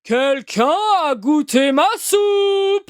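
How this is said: It is said in a big, deep voice.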